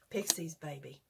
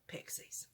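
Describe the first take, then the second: First: Said in the usual way. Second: Whispered. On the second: Real, not acted. Repeats hat slogan, then whispers it.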